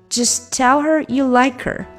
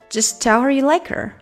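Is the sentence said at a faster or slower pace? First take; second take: slower; faster. First: The sentence is spoken at a slower pace. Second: The sentence is spoken at a faster pace. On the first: "整句我们连起来哈。" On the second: "稍微加快点，"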